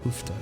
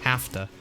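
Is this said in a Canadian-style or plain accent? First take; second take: Canadian-style; plain. First: The vowel is a rounded 'oo' sound. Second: The vowel is a plain open 'a' sound.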